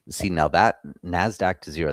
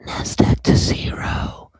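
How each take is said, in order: First: Said in the usual way. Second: Slow breathy whispered brand name; sultry perfume ad. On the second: Pretend. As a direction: whisper it like a fragrance ad. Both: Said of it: "That sounds like a perfume commercial".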